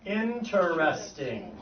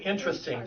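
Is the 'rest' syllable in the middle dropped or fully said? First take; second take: fully said; dropped. First: The middle syllable is fully said, like 'rest'. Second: The middle syllable is dropped, giving three syllables. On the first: It is the formal form. The speaker calls it right. "the formal pronunciation of that word is interesting" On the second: It is the common casual form. The speaker calls it wrong. "A lot of people say interesting"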